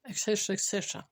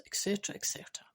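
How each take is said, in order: First: Said in the usual way. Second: Fast breathy whisper, softer; quick whispered et cetera; whispered aside. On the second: Shown as a demonstration. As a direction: toss it off under the breath. Trailing off a list, whispered.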